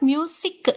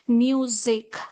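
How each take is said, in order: First: The middle consonant is a hissing s sound. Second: The middle consonant is a buzzing z sound. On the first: The speaker calls it wrong. "It's not music. Sa. It's not sa" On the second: The speaker calls it right. "You must pronounce it as music"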